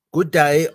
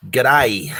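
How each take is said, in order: First: Loud "Good day" as two separate words; full "Good day". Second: Loud "G'day" run together as one word; reading "good day" as a clipped-down Aussie "G'day". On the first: Reading the greeting as written, loud two-word "Good day". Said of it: "I don't think I can do the accent". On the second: Answering a written good day, loud Aussie "G'day". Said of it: "I know that says good day". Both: Shown as a demonstration.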